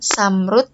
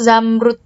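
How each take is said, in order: First: The word begins with an S sound. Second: The word begins with a Z sound. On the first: The speaker calls it wrong. "tidak boleh diganti dengan uh, huruf S" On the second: The speaker calls it right. "huruf Z pada awal kata"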